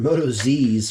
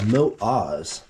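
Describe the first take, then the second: First: The name ends with a 'zees' sound. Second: The name ends with an 'oz' sound. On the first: The speaker calls it wrong. "or Moto Z's for the longest time" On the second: The speaker calls it right. "the correct pronunciation is Mote Oz"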